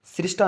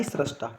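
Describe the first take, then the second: First: सृष्टा as "srish-ta"; i vowel in सृष्टा; wrong pronunciation. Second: सृष्टा as "srash-ta", falling; lower, softer सृष्टा with "ra"; correct pronunciation. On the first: Teacher recaps the error for students, mispronounced. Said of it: "सृष्टा नहीं". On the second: Teacher recaps the fix for students, careful pronunciation. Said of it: "रा आएगा, रा". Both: Shown as a demonstration.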